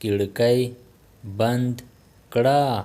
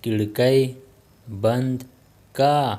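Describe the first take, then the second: First: The final ending is said in full as kra. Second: The final ending is shortened to ka. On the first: This is the full careful form. "कड़ा will become का" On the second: This is how native speakers say it. "नेटिव speakers speak"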